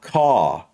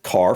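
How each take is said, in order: First: The R is very light after a long vowel. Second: The R is pronounced strongly at the end. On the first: "you have more of an A sound than the R sound" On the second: "for us, that's the opposite"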